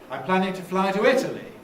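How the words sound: The pitch falls on the final word. "I'm using a fall there"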